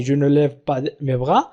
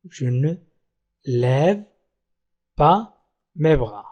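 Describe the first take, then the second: First: "Je ne lève pas mes bras" in one run, low and soft; whole sentence connected. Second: Low, soft "Je ne... lève... pas... mes bras" with long pauses; word by word. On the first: Teacher repeating the negative sentence for learners, connected. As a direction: join "Je ne lève pas mes bras" up without breaks, rising at the end. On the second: Teacher showing learners the negative sentence, word by word. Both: Shown as a demonstration.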